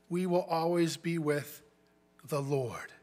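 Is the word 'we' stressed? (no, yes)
no. The word 'we' is not stressed. The promise is that believers will be with the Lord forever.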